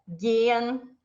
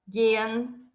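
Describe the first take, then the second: Both takes have the same delivery.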